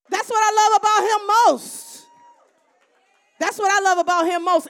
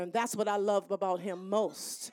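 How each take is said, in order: First: High, loud proclamation; loud emphatic. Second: Said in the usual way. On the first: Real, not acted. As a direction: proclaim it to the room. Repeats line, soft then loud.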